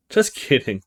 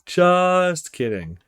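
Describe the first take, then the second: First: Said in the usual way. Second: Drawn out. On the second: Acted.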